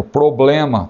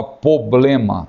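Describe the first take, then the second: First: Said in the usual way. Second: "problema" without its first r: "poblema"; mispronounced problema. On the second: Shown as a demonstration. Teacher quoting a common slip, "problema" said as "poblema". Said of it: "tem gente que fala problema".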